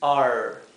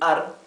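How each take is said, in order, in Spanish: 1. La r se pronuncia como una r inglesa. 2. La r se pronuncia como una r española. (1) "la R inglesa" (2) "cuando hablamos la R nuestra"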